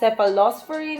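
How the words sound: It is said the Filipino way. "in the Philippines"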